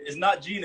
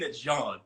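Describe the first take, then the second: First: "Jean" said with a long ee, like the English name Gene; the incorrect "Jean" with an ee vowel; wrong Jean. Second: The correct French "Jean", nasal ah. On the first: Correcting a friend, first the wrong way: "Jean" with an ee vowel. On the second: Correcting a friend, now the right way: French "Jean" with a nasal ah. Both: Shown as a demonstration. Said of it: "Say it".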